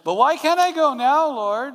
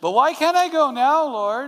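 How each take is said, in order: First: It is said in a whiny child's voice. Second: The same.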